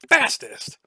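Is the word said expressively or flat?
expressively. The word is said with expressive, boastful inflection. It copies how the word was heard in context. The speaker calls it right. "you say fastest"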